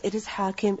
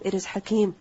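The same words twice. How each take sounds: First: "Hakim" with long open first vowel, short i. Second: "Hakeem" with short first vowel, long ee; long second vowel. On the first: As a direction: say "Hakim" as HAA-kim. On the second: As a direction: say "Hakeem" as ha-KEEM. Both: Shown as a demonstration. Two forms of one word contrasted.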